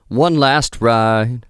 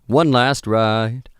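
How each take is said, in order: The two takes are said the same way.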